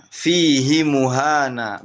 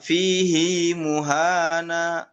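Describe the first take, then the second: First: Fihi muhana with a short "hi", no lengthening; without silah. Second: Fihi muhana with a long "hii", slowly drawn out; Hafs reading with silah. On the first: Teacher shows Syu'bah reading it without silah. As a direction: keep the "hi" in Fihi short and clipped. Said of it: "Biduni silah". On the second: Teacher shows the Hafs reading of Al-Furqan. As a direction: stretch the "hi" in fihi into a long vowel. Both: Shown as a demonstration.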